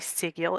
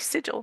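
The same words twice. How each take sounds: First: The g is pronounced hard, as in 'get'. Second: The g is pronounced soft, as in 'gem'. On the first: It follows the Latin pronunciation. "there's no soft G in Latin, and so I say "sigil"" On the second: It follows the common English pronunciation. "I can't say sigil unless I force myself to"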